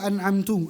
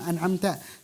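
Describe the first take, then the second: First: The word ends with a 'u' vowel. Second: The word ends with an 'a' vowel. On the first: The reciter is the one who gives the blessing. The speaker calls it wrong. "Tapi dibaca an'amtu" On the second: God is the one who gives the blessing. The speaker calls it right. "kan yang benar itu an'amta"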